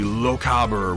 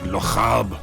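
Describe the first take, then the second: First: It is said in the speaker's ordinary accent. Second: It is said in a failed put-on Scottish accent. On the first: "which I'm definitely not pronouncing right" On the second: "that wasn't a Scottish accent at all"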